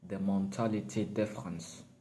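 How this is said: It is spoken in a put-on French accent. "Or should I have a French accent?"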